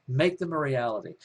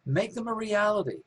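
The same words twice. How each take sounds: First: Said in the usual way. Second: "Make them a reality" pitched high, rousing, then dropping at the end; emphatic high exhortation. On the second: Real, not acted. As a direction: lift it high like a rallying cry. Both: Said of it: "repeats the phrase for emphasis".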